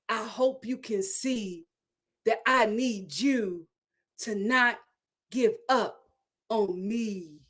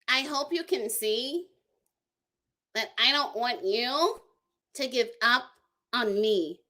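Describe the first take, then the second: First: It is said in the speaker's normal voice. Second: It is said in Brandon's high-pitched put-on voice.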